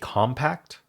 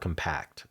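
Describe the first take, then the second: First: The stress is on the first syllable. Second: The stress is on the second syllable. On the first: It is used as a noun. "depending on if it's a noun or a verb. The noun emphasizes the first syllable" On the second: It is used as a verb. "the verb emphasizes the second syllable"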